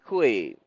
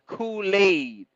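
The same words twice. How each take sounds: First: The word is shortened, not fully pronounced. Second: The word is pronounced fully and carefully. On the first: "We say Kool-Aid. ... don't say the whole thing" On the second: "We don't even say Kool-Aid"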